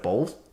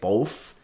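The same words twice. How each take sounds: First: The word ends with a TH sound. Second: The word ends with an F sound. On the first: The speaker calls it right. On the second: The speaker calls it wrong.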